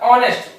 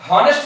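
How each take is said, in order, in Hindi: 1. शब्द की शुरुआत सीधे स्वर से होती है। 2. शब्द की शुरुआत h की आवाज़ से होती है। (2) "हॉनेस्ट नहीं होता है"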